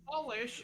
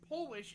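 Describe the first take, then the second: First: The first vowel sounds like in 'polishing'. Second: The first vowel sounds like in 'Poland'. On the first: Making something shiny by rubbing it. "you're polishing something" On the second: Coming from Poland. "means you're from Poland"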